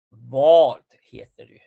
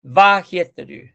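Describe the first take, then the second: First: "vad heter du" with "vad" on a long rounded O; slow model phrase, "vad" drawn out like "vod". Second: "va heter du" with an open Spanish A in "va"; slow, loud copy of the error, "va" on open A; mistaken open A. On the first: Shown as a demonstration. Teacher modelling the correct question, "vad" with long O. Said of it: "y es vad, o". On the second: Retold or imitated. Teacher imitating students' mistake, "va heter du" with open A. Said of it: "la mayoría me dijo".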